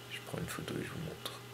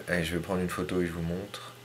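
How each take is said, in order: First: Soft, fast whisper to himself; hushed quick whisper while taking the photo. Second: Said in the usual way. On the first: Real, not acted. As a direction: whisper it quickly so as not to disturb. Whispered repeat while shooting.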